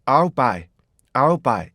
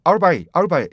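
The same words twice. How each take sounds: First: "I'll buy" slow, "I'll" as one gliding beat; right rhythm. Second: "I'll" as a hard "아울" with an L, louder; wrong version. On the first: Teacher demoing the right rhythm. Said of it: "I'll 하고 똑같이 만드셔야 돼". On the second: Teacher showing the wrong rendering with a laugh. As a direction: punch "아울 buy" with a clear L. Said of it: "이렇게 돼버려요". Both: Shown as a demonstration.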